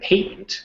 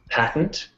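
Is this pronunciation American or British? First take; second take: British; American. First: It is said with a British pronunciation. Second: It is said with a North American pronunciation. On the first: "in the U K" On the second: "in North America"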